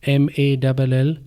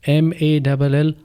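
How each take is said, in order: The two takes are said the same way.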